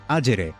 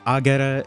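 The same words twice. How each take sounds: First: It is pronounced the Italian-like ecclesiastical way. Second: It is pronounced the classical Latin way. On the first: "but in ecclesiastical, it's agere" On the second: "this would be agere in classical Latin"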